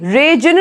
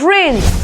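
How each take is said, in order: First: The g is sounded in the word. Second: The g is silent in the word. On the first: The speaker calls it wrong. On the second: The speaker calls it right.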